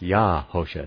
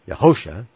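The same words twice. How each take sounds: First: The stress is on the first syllable. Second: The stress falls on a later syllable. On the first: The speaker calls it right. "with the accent on Yah" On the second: The speaker calls it wrong. "not Yahosha"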